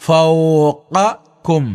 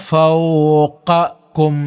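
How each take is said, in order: No difference in how they are said.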